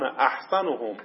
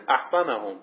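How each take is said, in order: First: احسنهم with "u" before the final hom: ahsanu-hum; u case ending. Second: احسنهم with "a" before the final hum: ahsana-hum; a case ending. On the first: Reads word, then re-voweled it. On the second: Re-reads word with other ending. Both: Shown as a demonstration.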